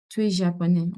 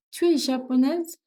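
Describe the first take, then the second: First: JAPONAIS kept level, no questioning lift; statement intonation. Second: JAPONAISE lifted high as a question; question intonation. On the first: French teacher models a statement for learners, flat intonation. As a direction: state it evenly through "japonais". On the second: French teacher models a question for learners, rising intonation. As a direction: ask it, pitch climbing on "japonaise". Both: Shown as a demonstration. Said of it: "that's not a question".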